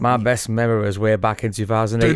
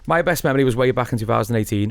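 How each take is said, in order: First: It is read in a put-on regional accent. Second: It is read in the speaker's normal voice.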